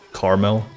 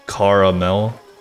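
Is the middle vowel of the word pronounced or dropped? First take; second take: dropped; pronounced. First: The middle vowel is dropped, giving two syllables. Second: The middle vowel is pronounced, giving three syllables.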